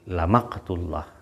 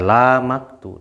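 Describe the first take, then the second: First: The vowel in 'la' is kept short. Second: The vowel in 'la' is drawn out long. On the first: The speaker calls it right. "Jadi la pendek ya" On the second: The speaker calls it wrong. "jangan dibaca la maktu"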